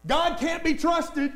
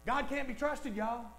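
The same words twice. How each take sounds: First: Slow, loud, higher with weight on be; emphatic preached line. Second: Quiet, insinuating take; hushed devil's whisper-lie. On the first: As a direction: lay out each word for the congregation. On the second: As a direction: slip it in quietly like a secret. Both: Retold or imitated. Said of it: "That's what the devil wants".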